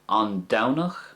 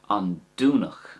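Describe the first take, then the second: First: The first vowel sounds like 'ow'. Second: The first vowel sounds like 'oo'. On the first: "That's the way I would say it" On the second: "you could also say it with a do sound"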